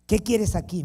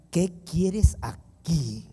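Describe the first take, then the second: First: Higher, louder, sharp "¿Qué quieres aquí?"; "¿Qué quieres aquí?" as a sharp, loud challenge; sharp demand. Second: Slow, drawn-out, cold "¿Qué quieres aquí?"; "¿Qué quieres aquí?" said very slowly, coldly; cold stunned question. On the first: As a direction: snap "¿Qué quieres aquí?" quickly at the door. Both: Retold or imitated. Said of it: "me dijo".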